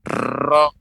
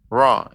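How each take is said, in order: First: The r has a long, heavy trill. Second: The r has no trill at all. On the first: "tidak boleh banyak ra" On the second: "Ini nggak bergetar"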